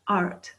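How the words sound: The vowel carries a clear r-coloured er sound. "they would say art with an er sound"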